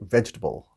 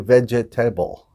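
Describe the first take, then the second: First: The word is squeezed into three syllables. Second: The word has four separate syllables. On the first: The speaker calls it right. "squish it together there and we say vegetable" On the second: The speaker calls it wrong. "We don't say vegetable"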